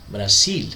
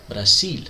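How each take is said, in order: The two takes are said the same way.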